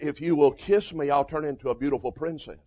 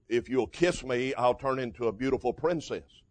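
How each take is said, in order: First: It is said in a feminine voice. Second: It is said in a plain voice.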